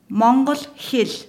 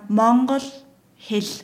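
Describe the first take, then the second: First: It is said at a normal speaking pace. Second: It is said very slowly and carefully.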